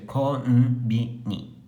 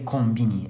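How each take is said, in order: First: The n is held as its own beat. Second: The n blends into the first syllable. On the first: The speaker calls it right. "a gente lê Konbini" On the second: The speaker calls it wrong. "a gente não lê Combine"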